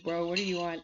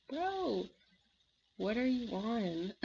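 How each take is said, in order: First: Said in the usual way. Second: Mock disbelief. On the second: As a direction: stretch it out in baffled amazement. Acted baffled reaction to Mark.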